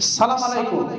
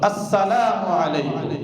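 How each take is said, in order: First: The opening syllable and linking vowel are dropped. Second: Every syllable of the greeting is fully pronounced. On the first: The speaker calls it wrong. "উচ্চারণের মধ্যে ভুল আছে" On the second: The speaker calls it right. "সালামের পদ্ধতি হলো"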